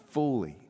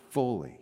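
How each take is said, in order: Both takes have the same delivery.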